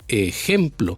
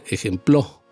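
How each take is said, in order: First: The stress is on the middle syllable. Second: The stress is on the last syllable. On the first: The speaker calls it right. "el golpe de voz va en la palabra gem" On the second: The speaker calls it wrong. "Tampoco en la palabra, en la sílaba plo"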